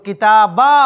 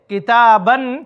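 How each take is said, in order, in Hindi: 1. शब्द का अंत सादे अ स्वर से होता है। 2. शब्द का अंत अंतिम न ध्वनि से होता है। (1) "तो किताबा हो जाएगा" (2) "किताबन को हम वक्फ करेंगे"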